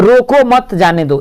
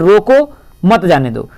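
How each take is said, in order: First: The pause comes after मत. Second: The pause comes after रोको.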